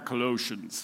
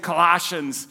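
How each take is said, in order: First: It is said in a deep, put-on accent. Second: It is said in a plain Minnesotan accent. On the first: "He says Colossians. I'm going to try to do it better" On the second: "we're Minnesotan, we say Colossians"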